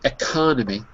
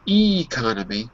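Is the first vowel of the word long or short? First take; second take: short; long. First: The first syllable is a short, closed 'ek'. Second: The first syllable is an open, long 'ee'. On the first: The speaker calls it right. "the first syllable is because it's ek" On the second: The speaker calls it wrong. "if I broke it on the e, it would be economy, which it isn't"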